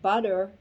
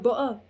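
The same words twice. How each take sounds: First: It is said in an American accent. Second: It is said in a northern English accent.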